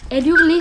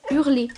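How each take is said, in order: First: Howling dog. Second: Said in the usual way. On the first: A narrator's reading.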